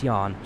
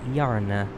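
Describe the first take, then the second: First: The word ends without a final vowel sound. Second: The word ends with a pronounced final vowel. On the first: This is the English reading of the name. "In English, it's yarn, just like the uh, the thing you knit with" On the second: This is the Finnish reading of the name. "if it was in Finnish, it would be Yarna"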